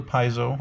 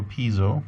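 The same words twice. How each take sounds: First: "piezo" said as PIE-zo; first syllable of "piezo" rhymes with "tie"; PIE-zo pronunciation. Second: "piezo" said as PEE-zo; first syllable of "piezo" rhymes with "see"; PEE-zo pronunciation. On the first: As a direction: open "piezo" with the vowel of "eye". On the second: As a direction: open "piezo" with a long ee vowel. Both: Shown as a demonstration. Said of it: "depending on how you pronounce it".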